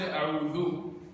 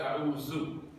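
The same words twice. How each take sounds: First: The middle consonant is a 'th' as in 'this'. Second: The middle consonant is a 'z' sound. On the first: I seek refuge. The speaker calls it right. "We don't say a'udhu" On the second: I am in extreme need. The speaker calls it wrong. "we say a'udhu. ... We make that mistake. ... Just changing the that to za"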